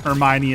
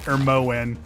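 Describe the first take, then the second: First: The name ends in 'oh-nee'. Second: The name ends in 'moyn'. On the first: The speaker calls it right. "pronouncing Hermione as" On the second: The speaker calls it wrong. "mispronouncing Hermione"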